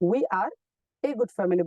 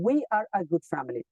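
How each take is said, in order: First: A full 'ay' vowel stands before 'good'. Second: A reduced 'a' is linked onto 'are'. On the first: The speaker calls it wrong. "আমরা কিন্তু we আর এই good family বলতে পারবো না" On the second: The speaker calls it right. "আর এ একসাথে হবে"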